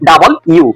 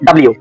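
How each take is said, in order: First: The name is said as two separate words. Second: The name is squeezed into one short word. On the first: The speaker calls it right. "এর সঠিক উচ্চারণ হবে" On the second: The speaker calls it wrong. "এটাকে আমরা পড়তাম"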